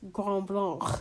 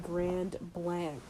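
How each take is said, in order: First: It is said with a French pronunciation. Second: It is said with an American pronunciation.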